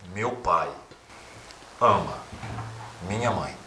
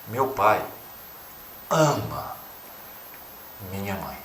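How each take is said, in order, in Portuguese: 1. O acento cai na palavra pai. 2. O acento cai na palavra ama. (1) "ora para o pai" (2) "ora para o amor"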